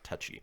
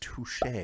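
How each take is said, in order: First: The word ends with an 'ee' sound. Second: The word ends with an 'ay' sound. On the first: The speaker calls it wrong. "not touchy" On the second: The speaker calls it right. "with the little thing over the E is touche"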